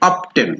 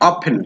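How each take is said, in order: First: The word is said with a t sound. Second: The word is said without a t sound. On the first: The speaker calls it wrong. "কিন্তু আমরা অনেক সময় বলি অফটেন" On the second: The speaker calls it right. "এটার উচ্চারণটা কি হবে? অফেন"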